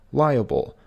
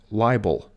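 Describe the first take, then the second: First: Liable said LYE-uh-ble, three syllables; correct pronunciation. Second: Liable said LYE-bel; common mispronunciation. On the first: Teacher showing viewers the right way. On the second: Teacher showing viewers the wrong way. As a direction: say liable like libel, two syllables. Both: Shown as a demonstration. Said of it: "often mispronounced as libel".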